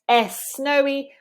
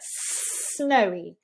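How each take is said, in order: First: An extra vowel sound comes before the s. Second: The word starts directly with a stretched s. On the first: The speaker calls it wrong. "instead of S snowy" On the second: The speaker calls it right. "we get snowy"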